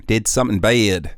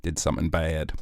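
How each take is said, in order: First: Said in the usual way. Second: Softer, ominous "did something bad"; quiet dramatic confession; hushed dramatic. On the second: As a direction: drop the voice for the reveal.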